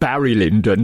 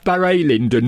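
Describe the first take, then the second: First: The first name is said the plain English way. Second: The first name is said with a French-style accented vowel. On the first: It names the Kubrick film. "not Barry Lyndon, not nothing to do with Kubrick" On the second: It names the English playwright. "he had a little accent over the U, so Barry Lyndon"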